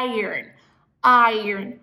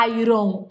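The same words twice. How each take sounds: First: IRON said as "eye-urn"; careful "iron" with no "ron"; correct iron. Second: IRON said as "eye-ron"; "iron" with a full "ron" ending; wrong iron. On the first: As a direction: end "iron" on R-N. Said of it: "É como se fosse um A I". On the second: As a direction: read "iron" as written. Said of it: "não iron". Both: Shown as a demonstration.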